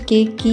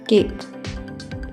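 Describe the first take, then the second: First: A final vowel sound is pronounced after the k. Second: The word ends on the k with no vowel. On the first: The speaker calls it wrong. "हम इसे केक की नहीं बोलेंगे" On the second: The speaker calls it right. "इसे बोलेंगे केक"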